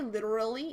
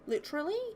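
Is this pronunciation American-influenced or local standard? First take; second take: American-influenced; local standard. First: It is pronounced with an American-influenced sound. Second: It is pronounced with the usual local sound. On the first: The speaker calls it wrong. "I say it weird" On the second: The speaker calls it right. "I think you're supposed to say it literally"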